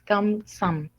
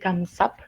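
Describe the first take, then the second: First: The syllable ends with an m sound. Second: The syllable ends with a p sound. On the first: The speaker calls it right. "es Kamsam con M" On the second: The speaker calls it wrong. "No es como Kamsahap ni Kamsap"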